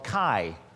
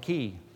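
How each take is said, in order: First: The name is said like 'kai', rhyming with 'eye'. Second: The name is said like 'kee', rhyming with 'see'. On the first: This is how fraternity members say it. "if you were in a frat, they call it a chi" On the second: This is how it is said in Greek. "But in Greek, we call it a key"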